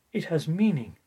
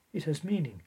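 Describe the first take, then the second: First: It has meaning, with a firm push on meaning; emphatic statement. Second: Said in the usual way. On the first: Shown as a demonstration. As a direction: land the word meaning with weight.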